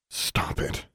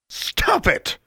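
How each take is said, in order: First: It is said quietly. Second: It is said loudly.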